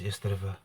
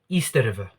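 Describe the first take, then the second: First: Said in the speaker's own everyday accent. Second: Said with a Zimbabwean accent, sounding like 'Easter'. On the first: "this is how I pronounce East River" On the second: "but he pronounced it like this"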